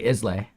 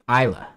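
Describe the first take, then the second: First: The word is read as it is spelled. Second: The word is said in the local way. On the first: The speaker calls it wrong. "We could be naive and just say Islay. Well, that's incorrect" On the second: The speaker calls it right. "There you go"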